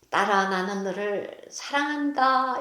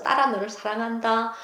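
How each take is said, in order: First: Soft, slow, 사랑한다 stressed; a longed-for father's hug in words; wished-for father to his daughter, tender; imagined father's tender words. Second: Soft, 딸아 stressed; quiet wish for a father's love; wished-for father to his daughter, softly; imagined father's tender words. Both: Pretend. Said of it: "껴안으면서".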